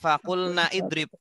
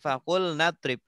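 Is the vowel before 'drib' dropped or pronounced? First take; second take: pronounced; dropped. First: An i vowel is pronounced before drib. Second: The i vowel is dropped, linking straight into drib. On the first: The speaker calls it wrong. "bukan fakulna idrib" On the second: The speaker calls it right. "tapi fakulna drib"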